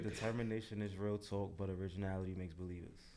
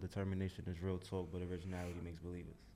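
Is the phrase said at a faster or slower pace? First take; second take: slower; faster. First: The phrase is said at a slower pace. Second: The phrase is said at a quicker pace.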